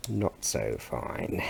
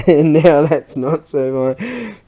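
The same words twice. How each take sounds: First: Lower, softer and slow, rueful; rueful mutter. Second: Louder and slow through a laugh; laughing repeat. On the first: Looking at the broken bit, muttering ruefully. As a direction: let it sink low and slow under the breath. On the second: Repeating the verdict on the broken bit, laughing. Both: Real, not acted.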